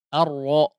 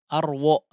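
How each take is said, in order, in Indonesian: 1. Ada bunyi w setelah r. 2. Ada bunyi w setelah r.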